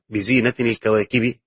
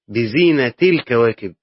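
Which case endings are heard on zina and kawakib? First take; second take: in, i; i, i. First: Zina ends in -in; kawakib ends in -i. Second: Zina ends in -i with no n sound. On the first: The stars themselves are the adornment. "قراءة تنوين زينة مع جر الكواكب ... لو هتوصل هتبين الكسرة" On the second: The adornment belongs to the stars. "قراءة الإضافة ... فلا تنوين فيها"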